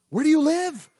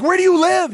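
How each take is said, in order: First: Said in the usual way. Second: Higher and louder, pressing; louder, urgent retold question. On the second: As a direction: demand it urgently of the stranger. Urgently asking the neighbor.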